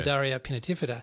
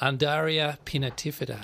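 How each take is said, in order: First: It is said at normal speed. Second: It is said slowly and deliberately.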